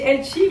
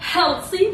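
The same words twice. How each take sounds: First: It is said with a French accent. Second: It is said with an American accent.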